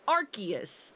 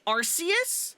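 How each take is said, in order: First: The first syllable sounds like 'ark', not 'arss'. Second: The first syllable sounds like 'arss', not 'ark'. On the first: This is the official English pronunciation. "the English pronunciation of Arceus is actually Arceus" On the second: This is the speaker's own preferred pronunciation. "so I say Arceus"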